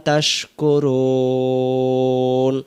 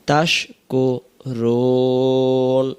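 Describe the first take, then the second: The two takes are said the same way.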